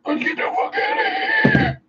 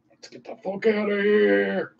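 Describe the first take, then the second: First: Extremely high squealed call; shrieky falsetto cry to flee; comic falsetto shout. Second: Playful high-voiced hurry; raised-pitch urgency. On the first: Pretend. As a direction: squeal it in a mock panic. Repeated as a comic scream. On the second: First urgent take, then repeated higher.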